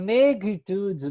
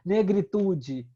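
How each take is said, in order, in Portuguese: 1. A palavra é pronunciada do jeito francês. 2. A palavra é pronunciada do jeito português. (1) "era negritude" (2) "não era negritude"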